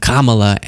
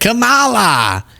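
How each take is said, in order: First: The name is said in its standard form. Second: The name is said in a distorted form. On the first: The speaker calls it right. "pronounces it correctly for the first time" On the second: The speaker calls it wrong. "After the whole campaign, he was like"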